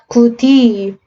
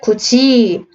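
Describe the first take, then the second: First: The second syllable starts with a 'd' sound. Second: The second syllable starts with a 'j' sound. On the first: The speaker calls it wrong. "구디 혀 움직여야 되는데" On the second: The speaker calls it right. "구지 안 움직이고 고정. 훨씬 편해"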